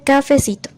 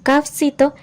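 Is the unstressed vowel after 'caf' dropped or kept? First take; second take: kept; dropped. First: The unstressed vowel after 'caf' is fully pronounced. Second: The unstressed vowel after 'caf' is dropped.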